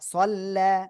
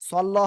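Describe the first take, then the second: First: The final vowel is held long. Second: The final vowel is cut short. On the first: The speaker calls it right. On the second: The speaker calls it wrong. "একজন বলতেছেন সল্ল, ... সল্ল হবে না"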